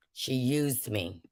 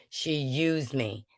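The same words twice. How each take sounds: First: Quiet hurt. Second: Whispered, slow and hurt. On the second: Speaker whispering how Wanda used her, slow and hurt. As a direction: breathe it out, wounded. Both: Real, not acted.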